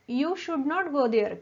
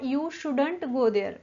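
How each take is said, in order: First: Should not is said as two full words. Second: Should not is contracted into one word. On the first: "शुड नॉट" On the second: "शुड नॉटचं contraction आहे शुडंट"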